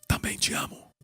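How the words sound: It is whispered softly.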